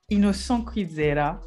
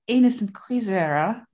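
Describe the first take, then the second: First: The name is said with a French-Kirundi pronunciation. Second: The name is said with an American pronunciation. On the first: "I'm saying this in a French-Kirundi way" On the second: "A la American will say"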